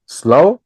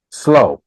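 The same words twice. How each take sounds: First: "Slow" said higher with a rising tune; rising model word. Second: "Slow" said once with a clear falling tune; falling model word. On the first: Teacher prompts students to repeat Slow, rising and higher. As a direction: prompt the class with "Slow", lifting at the end. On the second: Teacher models Slow for students to repeat, falling tune. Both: Shown as a demonstration. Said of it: "One, two, three".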